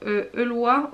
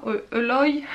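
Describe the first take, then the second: First: Eloy said as "Elwa", rising, unsure; first try at the name. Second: Eloy said as "Eloy" with a y glide, settled; corrected name. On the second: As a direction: fix it: Eloy as "Eloy", falling and sure. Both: Real, not acted. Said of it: "Surtout, on ne se moque pas".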